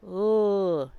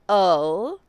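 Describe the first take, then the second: First: The bare L sound with no vowel. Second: A vowel sound comes before the L. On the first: The speaker calls it right. "but l" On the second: The speaker calls it wrong. "It is not oh"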